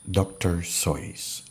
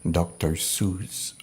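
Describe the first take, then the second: First: The name's vowel sounds like the vowel in 'voice'. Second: The name's vowel sounds like the vowel in 'juice'. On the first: This is how the sources say the name is pronounced. The speaker calls it right. "according to the sources, they pronounce it doctor Sois" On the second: This is how many people commonly say the name. The speaker calls it wrong. "Some would call him doctor Seuss"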